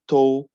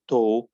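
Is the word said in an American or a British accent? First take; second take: British; British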